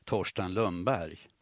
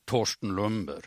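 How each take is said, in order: First: Slower "Torsten Lundberg" as said elsewhere in Sweden; non-Norrland pronunciation. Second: "Torsten Lundberg" with Norrland acute word accent. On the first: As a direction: say "Torsten Lundberg" without the Norrland acute accent. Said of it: "I andra delar av Sverige skulle man nog säga". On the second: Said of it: "att det är fråga om en norrlänning". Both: Shown as a demonstration.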